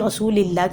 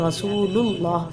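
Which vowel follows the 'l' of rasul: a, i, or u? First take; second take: i; u. First: An i vowel follows the l sound. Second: A u vowel follows the l sound. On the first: The speaker calls it wrong. "कभी रसूलिल्लाह कह" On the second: The speaker calls it right. "रसूलुल्लाह पढ़ना है। लाम के ऊपर पेश आएगा"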